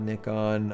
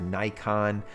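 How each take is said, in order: First: It is said the way people overseas say it. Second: It is said the way Americans say it. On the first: "it's like overseas. You know, you hear a lot of Nikon" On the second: "here in the U S, you s- you hear Nikon"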